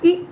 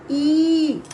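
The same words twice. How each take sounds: First: Short i, cut off quickly. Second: Long ई held and louder. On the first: Teacher demonstrating the short इ sound to children. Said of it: "हमें ऐसे बोलना चाहिए". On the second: Teacher demonstrating a long, drawn-out ई to children. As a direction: stretch out ई, held longer. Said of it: "कम समय तक आवाज़ निकले". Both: Shown as a demonstration.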